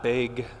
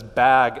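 First: The word is said in a thick Wisconsin accent. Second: The word is said in a general American accent. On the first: The speaker calls it wrong. "and not big" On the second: The speaker calls it right. "it was bag"

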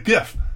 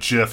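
First: The word starts with a hard G sound. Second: The word starts with a soft J sound. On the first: The speaker's own usual way. The speaker calls it right. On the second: Someone else says it this way. The speaker calls it wrong.

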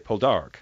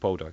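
First: The stress is on the second syllable. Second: The stress is on the first syllable. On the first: This is how the characters now say it. "With the emphasis on the second syllable" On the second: This is how announcers have always said it. "it's always called Poldark"

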